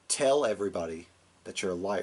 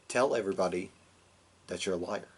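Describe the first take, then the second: First: It is said with stepped-up, higher intensity. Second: It is said softly with lower intensity.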